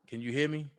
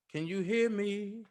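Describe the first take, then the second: First: Said in the usual way. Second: Soft, drawn-out singing; sung mic check. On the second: Real, not acted. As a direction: sing it softly, stretching the last word.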